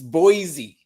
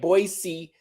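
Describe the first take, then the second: First: The middle consonant is a z sound. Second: The middle consonant is an s sound. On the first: The speaker calls it right. "with a Z" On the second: The speaker calls it wrong. "been saying Boise"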